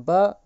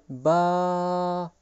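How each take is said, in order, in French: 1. La voyelle est courte et sèche. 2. La voyelle est longue, on la prolonge.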